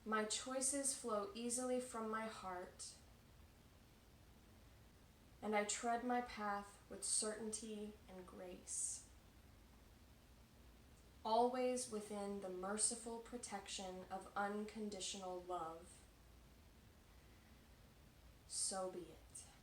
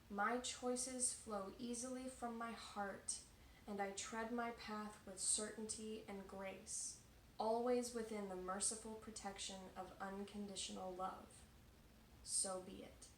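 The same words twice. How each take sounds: First: It is said at a slower pace. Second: It is said at a faster pace.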